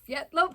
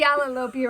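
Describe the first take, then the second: First: The name starts with one short syllable, fiet. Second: The name starts with three syllables, fi-a-la. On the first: This is the accurate way they were told. The speaker calls it right. "we've been told that the accurate way is Fietlopi" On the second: This is the casual way used in the shop. The speaker calls it wrong. "We've been saying Fialalopi around the shop"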